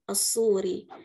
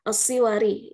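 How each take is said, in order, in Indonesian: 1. Bunyi u pendek setelah s, tanpa suku kata wa tambahan. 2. I setelah s, lalu diikuti suku kata wa. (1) "mendhamahkan kata huruf sad dan mensukunkan huruf waw" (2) "dengan kasrah pada sad"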